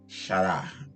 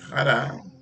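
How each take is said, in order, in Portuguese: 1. A palavra começa com som de CH. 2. A palavra começa com um R gutural. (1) "não é xará" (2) "som de um R e outras têm som de dois"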